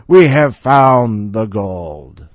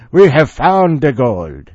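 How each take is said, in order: First: Dramatic explorer voice. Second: Put-on loud, slow Irish accent. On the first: Acted. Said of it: "maybe I should have". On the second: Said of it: "that sounds Irish now".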